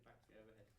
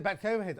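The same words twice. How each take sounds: First: A barely voiced whisper of a relayed instruction; hushed off-mic whisper; whispered quote. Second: Said in the usual way. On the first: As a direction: breathe the words out with no voice at all. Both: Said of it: "He said".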